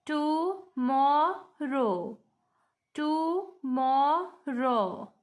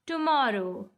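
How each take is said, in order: First: TOMORROW very slow in three parts, to-mor-row, pauses between; split into syllables. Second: Said in the usual way. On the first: Shown as a demonstration. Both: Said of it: "we have three syllables".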